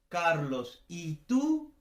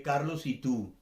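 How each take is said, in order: First: Carlos, then "y tú" rising as a question; questioning intonation. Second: "Carlos y tú" run together, falling; no break, let "tú" drop; joined statement intonation. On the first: Teacher contrasts intonations, "Carlos, ¿y tú?" asked with a rise. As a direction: break after Carlos and lift "tú". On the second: Teacher contrasts intonations, "Carlos y tú" as one falling phrase. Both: Shown as a demonstration. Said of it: "no es lo mismo decir".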